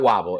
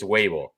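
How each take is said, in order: First: The first vowel sounds like in 'bob'. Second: The first vowel sounds like in 'babe'. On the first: The speaker calls it wrong. "Make sure you don't call him Wobble. It's not Wobble" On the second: The speaker calls it right. "it's Wable ... table with a W"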